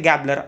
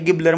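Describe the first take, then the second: First: The first vowel sounds like 'a' in 'gab'. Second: The first vowel sounds like 'i' in 'gib'. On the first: The speaker calls it right. "ते गॅबलर असं त्याचं pronunciation आहे" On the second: The speaker calls it wrong. "त्यांनी गिबलर म्हटलं"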